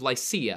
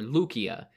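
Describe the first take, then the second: First: The name is said in its usual English pronunciation. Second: The name is said in its ancient Greek pronunciation.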